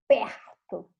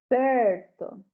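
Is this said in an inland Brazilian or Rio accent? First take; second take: Rio; inland Brazilian. First: It is said in a Rio de Janeiro accent. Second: It is said in an inland Brazilian accent. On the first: "eu morei no Rio de Janeiro por três anos e eles falavam" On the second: "aqui onde eu moro, que é mais no interior, eles falam"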